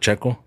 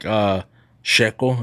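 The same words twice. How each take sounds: First: The word begins with a ch sound. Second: The word begins with an sh sound. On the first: This is how it is usually said. "instead of" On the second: This is how people from one region say it. "they make it more like sh"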